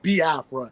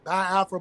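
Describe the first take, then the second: First: The first syllable sounds like "bee". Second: The first syllable sounds like "bye". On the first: The speaker calls it right. "but it's Biafra" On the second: The speaker calls it wrong. "some people say Biafra because they don't really, you know, understand the, you know, the pronunciation when it comes to the I E sounds"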